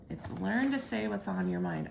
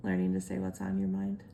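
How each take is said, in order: First: Said in the usual way. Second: Dry, lightly sarcastic repeat. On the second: Real, not acted. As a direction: say it with a little sarcasm. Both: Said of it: "Are you being sarcastic?".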